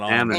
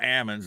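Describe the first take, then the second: First: The word is said with an L sound. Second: The word is said without any L sound. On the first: This is the usual way of saying it. "not almonds" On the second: This is how locals in one county say it. "the nut fell and knocked the L out of it"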